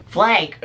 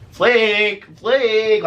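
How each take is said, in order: First: Higher, sharp summons; grandma calling. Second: High, loud dopey calling; mocking drunk call. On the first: Acted. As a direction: imitate grandma calling a name. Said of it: "now she's calling her by her name". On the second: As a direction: imitate a drunk friend calling out. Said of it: "like a fucking retard".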